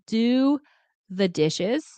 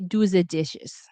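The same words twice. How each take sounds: First: The word 'the' starts with a TH sound. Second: The word 'the' starts with a D sound. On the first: The speaker calls it right. "when I say" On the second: The speaker calls it wrong. "I say"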